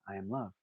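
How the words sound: It is said quietly and sincerely, from within.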